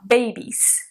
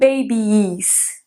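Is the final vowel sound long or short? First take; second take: short; long. First: The final vowel is a short single I. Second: The final vowel is a long double I. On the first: The speaker calls it right. "Um I meio que tipo de brasileiro mesmo" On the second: The speaker calls it wrong. "Não babies"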